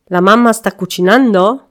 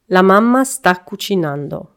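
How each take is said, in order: First: The voice rises at the end. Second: The voice falls at the end.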